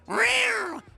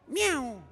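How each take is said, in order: First: The meow is strong and forceful. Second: The meow is soft and weak.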